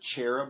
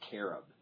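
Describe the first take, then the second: First: The word begins with a ch sound. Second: The word begins with a k sound. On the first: This is the English way of saying it. "even our word cherub" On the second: This is the Hebrew way of saying it. "technically the Hebrew word cherub is carob"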